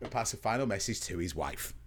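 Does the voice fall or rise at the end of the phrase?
fall. The voice falls at the end. The sentence is finished at the wife. The speaker calls it right.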